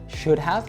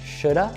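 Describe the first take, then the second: First: Both words are said fully, with a clear 'have'. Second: 'Have' shrinks to a short weak vowel. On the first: "should have becomes" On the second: "becomes shoulda"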